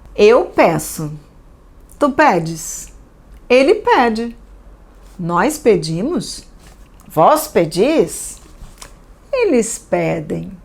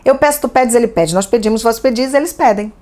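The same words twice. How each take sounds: First: It is read at an ordinary, unhurried pace. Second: It is read very quickly.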